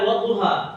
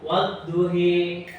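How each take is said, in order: First: The final vowel is a plain open 'a'. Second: The final vowel leans toward an 'e' sound.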